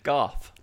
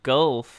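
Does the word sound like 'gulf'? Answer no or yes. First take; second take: no; yes. First: The vowel does not sound like in 'gulf'. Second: The vowel sounds like in 'gulf'. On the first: "You did say it weird" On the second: "the way you and Diana say it"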